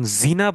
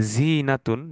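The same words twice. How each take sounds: First: জিনা with a short clipped i, no stretch; short vowel. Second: জিনাতুন with the ee after জ drawn out long; long middle vowel. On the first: Teacher contrasting the short vowel in জিনা for students. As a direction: say জিনা quickly with no long vowel. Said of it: "টানটা থাকতেছে না মাঝখানে". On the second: Teacher showing students the long vowel in জিনাতুন. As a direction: stretch the ee in জিনাতুন. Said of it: "ইয়াটা মাঝখানে টান দিচ্ছি". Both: Shown as a demonstration.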